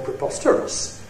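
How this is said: The pitch rises then falls on the stressed syllable. "Rise fall"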